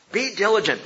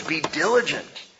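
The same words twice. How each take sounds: First: "diligent" pushed up and hit harder on the repeat; emphatic repeat. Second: Said in the usual way. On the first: Shown as a demonstration. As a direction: drive home "diligent" as a command. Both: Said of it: "Paul says".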